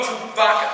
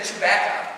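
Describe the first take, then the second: First: Chewbacca with an open "ah" in the middle; mispronounced like a cow. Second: Said in the usual way. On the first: Retold or imitated. Comic imitating girlfriend's mistake, Chewbacca with a broad "BAH". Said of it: "She said it like a cow". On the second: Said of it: "No, Chewbacca".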